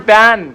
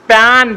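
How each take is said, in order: Both takes have the same delivery.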